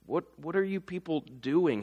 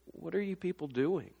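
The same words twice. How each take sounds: First: "What, what are you people doing?" with "are" stressed, falling, less hushed; fuller exasperated version. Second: Softer, stress on "are", falling; hushed exasperation. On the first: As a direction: ask it openly, exasperated. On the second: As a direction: mutter "what are you people doing?" under your breath. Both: Retold or imitated. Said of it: "I want to say".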